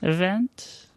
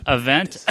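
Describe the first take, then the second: First: Said in the usual way. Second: Word hidden in a fake cough. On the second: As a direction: cough it out, hinting. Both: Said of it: "Cough, cough".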